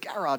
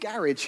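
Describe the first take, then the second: First: The word is said with an American pronunciation. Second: The word is said with a non-American pronunciation. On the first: The speaker calls it wrong. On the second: The speaker calls it right.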